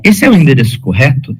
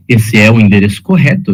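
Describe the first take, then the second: First: "Esse é o endereço correto" asked, pitched up towards "correto"; question intonation. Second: "Esse é o endereço correto" stated with a falling end on "correto"; statement intonation. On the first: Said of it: "eu estou perguntando". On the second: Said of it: "eu estou afirmando isso". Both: Shown as a demonstration.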